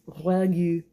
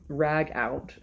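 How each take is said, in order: First: It ends in 'goo' with no t sound. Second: It ends in 'out' with a t sound. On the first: The speaker calls it right. "It is ragu, but it's French" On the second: The speaker calls it wrong. "Rag out is what it looks like, but I'm sure it's not rag out"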